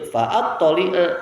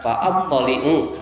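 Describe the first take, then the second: First: The word ends with an a vowel. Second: The word ends with an u vowel. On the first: The verb answers the command before it. "dapat dibaca juga dengan nasab" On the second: The verb is joined to the verb before it. "kalau dibaca rofa"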